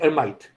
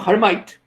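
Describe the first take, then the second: First: The name is said with a French pronunciation. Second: The name is said with an English pronunciation. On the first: "but it's actually Ermite" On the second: "because it sounds more English that way"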